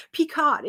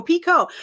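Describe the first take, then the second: First: "Picot" said PEE-cot with the T sounded; mispronunciation. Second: "Pico" said PEE-koh, no T; higher, louder "Pico" ending on a long O; corrected pronunciation. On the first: Learner reading the spelled-out stitch name, wrong final T. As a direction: read "Picot" as spelled, higher, ending in a hard T. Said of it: "they spelled it out for me". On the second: Learner correcting the stitch name, PEE-koh with silent T. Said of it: "how to say the stitch picot". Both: Shown as a demonstration.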